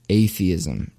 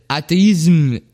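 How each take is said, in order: First: Said in the usual way. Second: Atheism pronounced the French way, "athéisme"; French accent. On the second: Shown as a demonstration. Host mock-translating Derrida's word for listeners, French accent. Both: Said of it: "that's an accent".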